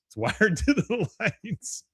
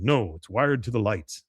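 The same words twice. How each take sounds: First: High, slow and drawn-out mock complaint; mock exasperation. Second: Said in the usual way. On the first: Retelling Hank's gripe about the massage music, mock exasperated. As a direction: stretch it out high, breaking into a laugh. Repeats the line for comic effect.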